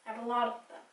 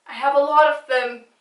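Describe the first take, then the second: First: Much softer, trailing aside. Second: Said in the usual way. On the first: Real, not acted. Repeating to viewers as a quiet self-aware aside. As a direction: drop it to a muttered afterthought.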